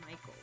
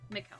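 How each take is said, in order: First: The name has its usual English pronunciation. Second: The name has a non-English pronunciation. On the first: "my English brain just wants to say Michael" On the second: "I feel like Mikkel fits the vibe better"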